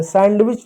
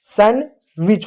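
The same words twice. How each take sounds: First: सैंडविच with a clear middle d; D pronounced. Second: सैंडविच said as san-wich, no d; silent D. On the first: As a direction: sound the D in सैंडविच. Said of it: "नहीं होता है". (डी बोलकर "सैंडविच") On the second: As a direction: drop the D from सैंडविच. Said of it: "सैंडविच होता है". (डी silent रखकर "सैंडविच") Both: Shown as a demonstration.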